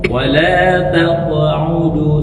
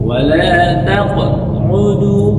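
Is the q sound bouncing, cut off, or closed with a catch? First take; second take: bouncing; cut off. First: The q sound bounces lightly without stopping. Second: The voice stops dead on the q sound. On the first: The speaker calls it right. "seperti itu" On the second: The speaker calls it wrong. "putus suaranya"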